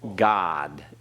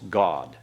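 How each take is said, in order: First: The vowel is open like in 'father'. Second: The vowel is a rounder 'o' sound. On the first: The speaker calls it wrong. "It's not God" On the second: The speaker calls it right. "It's God"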